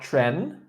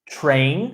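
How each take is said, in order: First: The vowel is a short 'eh' sound. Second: The vowel is a long 'ay' sound. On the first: The speaker calls it wrong. "not tren" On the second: The speaker calls it right.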